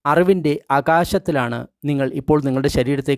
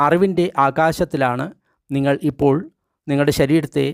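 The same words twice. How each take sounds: The two takes are said the same way.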